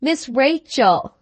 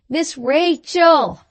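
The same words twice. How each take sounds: First: Slow, only mildly raised call; first try at shouting. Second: Much slower and higher, drawn-out call; roared name. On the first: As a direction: say the name slowly without pushing. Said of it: "shouted in the old lady's ear". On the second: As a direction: bellow the name slowly into her ear. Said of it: "roared the fat boy". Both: A narrator's reading.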